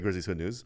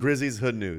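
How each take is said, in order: First: The name is said fast. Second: The name is said slowly.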